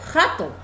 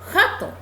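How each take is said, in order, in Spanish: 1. Empieza con un sonido fuerte y gutural, parecido a una h. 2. Empieza con un sonido fuerte y gutural, parecido a una h.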